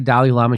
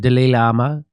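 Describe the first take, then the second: First: Dalai is pronounced the usual way. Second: Dalai is pronounced like the word delay. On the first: This is the common pronunciation. "She doesn't say Dalai Lama" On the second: Someone else said it this way. "She said Dalai Lama. Delay"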